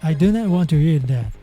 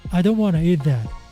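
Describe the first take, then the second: First: Every word is said fully and separately. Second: Some words are shortened and run together. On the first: "the original sentence" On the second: "Now you can speak faster"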